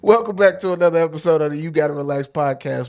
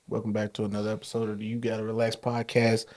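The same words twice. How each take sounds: First: It is said with lively, high energy. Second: It is said in a flat, low-energy way.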